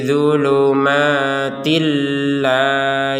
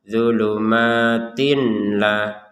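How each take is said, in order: First: The n is merged into a doubled l. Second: The n is pronounced clearly before the l. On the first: The speaker calls it right. "Jadi seperti itu" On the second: The speaker calls it wrong. "Kalau dibaca dengan jelas"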